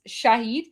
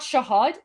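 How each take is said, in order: First: The second vowel sounds like 'ee' in 'heed'. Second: The second vowel sounds like 'a' in 'had'. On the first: The speaker calls it right. "It's Shahid" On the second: The speaker calls it wrong. "It's not Shahad"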